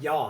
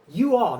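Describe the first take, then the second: First: Contracted into a single syllable, y'all. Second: Two separate words, you and all. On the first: "not y'all. I would never say that"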